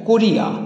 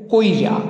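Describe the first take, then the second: First: The i sound comes after the r. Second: The i sound comes before the r. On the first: "ইকারটা ছিল রয়ের পরে" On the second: "এটা উচ্চারিত হয়ে যাচ্ছে রয়ের আগে"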